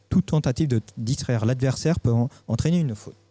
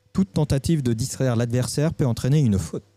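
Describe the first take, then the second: The two takes are said the same way.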